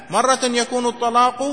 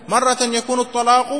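Both takes have the same delivery.

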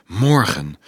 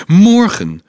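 First: Said in the usual way. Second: High, loud exclamation of Morgen!; Morgen! cried out high and loud; joyful cry. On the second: Acted. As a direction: burst out Morgen! with joy. Joyful outburst about tomorrow.

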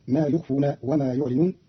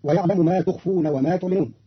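First: يخفون and يعلنون begun with "yu", not "tu"; y sound starting both يخفون and يعلنون; third-person ya. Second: Said in the usual way. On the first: Shown as a demonstration. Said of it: "بياء الغيب فيهما". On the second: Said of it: "قرأ قالون كلمتي ما تخفون".

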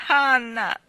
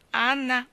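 First: Put-on loud, high cry of an upset child; sobbed cry. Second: Put-on high, loud pleading child's call; imploring little voice. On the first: Davy throwing his arms round Anna, sobbed cry. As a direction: cry the name out, acting a sob. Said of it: "singhiozzò Davy buttandole le braccia al collo". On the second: Davy calling Anna from the door, imploring little voice. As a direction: call out pleadingly like a small boy. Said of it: "una vocina implorante chiamò". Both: A narrator's reading.

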